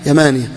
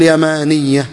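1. صوت 'y' الأخير قصير ومفرد. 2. صوت 'y' الأخير مضعّف ومطوّل. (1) "إذا أتيت بالألف ها حذفت إحدى الياءين" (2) "ما تقول يمانية"

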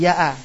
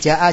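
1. Kata ini dimulai dengan bunyi Y. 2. Kata ini dimulai dengan bunyi J. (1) "dialeknya sedikit berubah. Kayak misalnya ja'a jadi ya'a" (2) "bahasa pasaran itu ada asalnya dari bahasa fusha"

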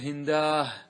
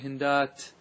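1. تنتهي الكلمة بصوت الهاء. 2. تنتهي الكلمة بصوت التاء الساكنة. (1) "بعض العرب يقول يقلب إلى هاء" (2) "تقول هندات"

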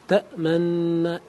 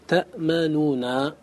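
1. تندمج النونان في نون واحدة طويلة. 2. تُلفظ النونان منفصلتين. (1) "ولا يجوز الإدغام المحض" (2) "لا يجوز الإظهار"

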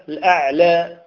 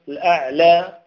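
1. الصوت الأخير يميل قليلاً نحو الكسرة. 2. الصوت الأخير يميل قليلاً نحو الكسرة.

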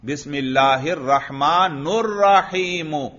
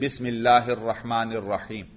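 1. آخری دو الفاظ u حرفِ علت پر ختم ہوتے ہیں۔ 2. آخری دو الفاظ i حرفِ علت پر ختم ہوتے ہیں۔ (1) "آپ اس پر رفع پڑھ دیتے ہیں" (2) "یہ دونوں بھی مجرور ہیں"

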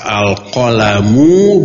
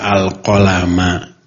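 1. Kata ini berakhir dengan vokal 'u'. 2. Kata ini berakhir dengan vokal 'a'. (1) "Qalam ini bisa dibaca al-qalamu" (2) "bisa dibaca al-qalama"

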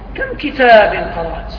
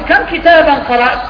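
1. تُنطق بنغمة تعجّبية خبرية. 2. تُنطق بنغمة استفهامية. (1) "فالنبر أيضا يعين" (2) "أنا مستفهم"

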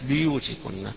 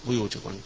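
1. الصامت الأول يتبعه صوت 'i'. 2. الصامت الأول لا يتبعه صوت 'i'. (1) "بكسر الباء" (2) "بيوتكن قراءة حفص عن عاصم"

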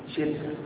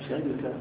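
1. هي مشكولة مثل nima، كـ shirka. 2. هي مشكولة مثل saraqa، كـ sharika. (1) "نعمة شركة" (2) "على وزن سرقة شركة"

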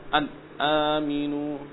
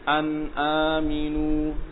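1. Huruf n tidak punya dengung sengau. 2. Huruf n punya dengung sengau yang pendek. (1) "enggak seperti itu, tapi ada gunnahnya" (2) "jadi seperti itu ya"

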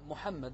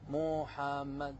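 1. يُنطق الاسم بطول حركات عادي. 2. يُنطق الاسم والحركات ممدودة طويلة. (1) "يعني الإنسان اللي اسمه محمد تقول له محمد" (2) "ما تقول له محمد، فلما تمطط يعني يختل أيضا المعنى"

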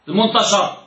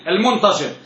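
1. يأتي بعد صوت sh حركة 'a'. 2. يأتي بعد صوت sh حركة 'i'. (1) "وقد غلط من ينطق الشين بالفتح" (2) "لا المنتشر من الانتشار اسم فاعل"

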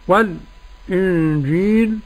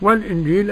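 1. يأتي سكت خفيف قبل الهمزة. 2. تُحقَّق الهمزة مباشرة دون سكت. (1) "أدي السكت" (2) "أدي التحقيق"

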